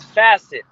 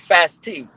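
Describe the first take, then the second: First: The name sounds like 'facet'. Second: The name sounds like 'fast tee'. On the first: The speaker calls it right. "It's Facet" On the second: The speaker calls it wrong. "some people say Fast T because they don't know how to pronounce it"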